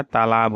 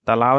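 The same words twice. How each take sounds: First: Said in the usual way. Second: तालाब with short first a, final v; wrong pronunciation. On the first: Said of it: "होता है". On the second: Shown as a demonstration. Teacher shows students the error, तालाब said as talaav. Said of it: "नहीं होता है".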